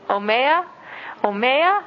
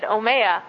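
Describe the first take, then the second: First: Asking someone at home for water, rising omeya; pleading ask for water. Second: Said in the usual way. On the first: Shown as a demonstration. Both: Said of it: "you only have to say it one time".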